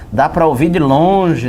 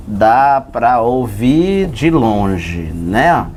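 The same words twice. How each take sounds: First: Said in the usual way. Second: Drawn out, much lower, very slow. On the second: Shown as a demonstration. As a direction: stretch it down low like a far-off moo. Teacher imitates a distant low sound. (bem devagar e grave, arrastado)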